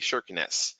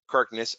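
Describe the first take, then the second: First: The name is said with a Norwegian pronunciation. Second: The name is said with an English pronunciation.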